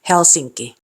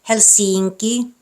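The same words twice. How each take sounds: First: The stress is on the first syllable. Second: The stress is on a later syllable. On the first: The speaker calls it right. "the stress is on the first syllable ... Should be Helsinki" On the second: The speaker calls it wrong. "these words aren't pronounced Helsinki"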